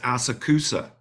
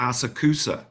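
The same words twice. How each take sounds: First: The name is said with non-Japanese pronunciation. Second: The name is said with non-Japanese pronunciation.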